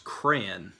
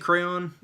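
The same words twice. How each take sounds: First: It is shortened to one syllable, like cran. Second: It is said fully as two distinct syllables. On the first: "another common way to say this is crayon, like C R A N" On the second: "I say crayon, uh, which sounds almost as I guess really is over enunciating"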